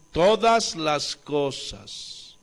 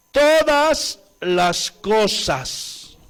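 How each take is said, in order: First: "todas las cosas" slow and soft, stress still on todas; soft echo. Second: "todas las cosas" slow and loud, stressing todas; emphatic. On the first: Preacher echoing the verse to the church, slow and soft. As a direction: repeat "todas las cosas" quietly and slowly. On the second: Preacher quoting Romans 8:28, slow and loud on todas. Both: Shown as a demonstration.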